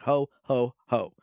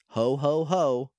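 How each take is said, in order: First: Each ho is short, flat, and cut off. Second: Each ho is lively and strongly emphasized. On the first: "But it's like short. But it certainly, it does stop" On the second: "I put a little too much emphasis on it"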